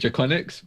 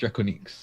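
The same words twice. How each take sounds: First: The name is pronounced like an English word. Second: The name is pronounced like a French word. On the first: "I still pronounce it" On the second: "technically properly pronounced"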